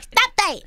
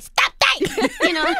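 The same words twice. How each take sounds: First: Tiny voice, louder. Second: Copying her right back with a laugh; a higher laughing echo of Stop that; playful mimic, louder and higher. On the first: Retold or imitated. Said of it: "then she was like". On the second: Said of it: "I was like".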